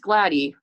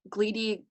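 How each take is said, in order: First: The first vowel sounds like 'a' in glad. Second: The first vowel sounds like 'ee' in see. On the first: This is how the band says the name. "it's gladdy" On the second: This is how other people say the name. "a lot of people call it gleedy"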